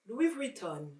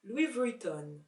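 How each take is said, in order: The two takes are said the same way.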